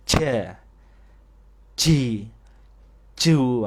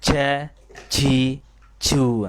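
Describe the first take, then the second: First: Ja, ji, ju ditekan, bernafas, lalu dibanting; logat Jawa. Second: Ja, ji, ju dengan logat Jawa, ditekan dan dibanting. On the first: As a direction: contoh jim medok Jawa. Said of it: "Nah, ini logat Jawa". (jim logat Jawa yang keliru) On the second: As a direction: contohkan jim ala logat Jawa. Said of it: "ini pada logat Jawa". (guru menirukan jim logat Jawa) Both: Shown as a demonstration.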